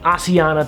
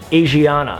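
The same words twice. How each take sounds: First: The name is pronounced the Korean way. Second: The name is pronounced the American English way. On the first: This is how the airline's own crew say it. "I feel really uncomfortable pronouncing it Asiana" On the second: This is the familiar American habit. "the American in me, who only knows American English, wants to pronounce it"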